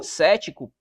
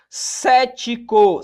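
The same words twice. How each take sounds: First: Said in the usual way. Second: "Cético" very slow, CÉ stretched high and loud; "Cético" drawn right out from a strong CÉ; stress on first syllable. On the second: Shown as a demonstration. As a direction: sound out "Cético" syllable by syllable, leaning on CÉ. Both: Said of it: "proparoxítona".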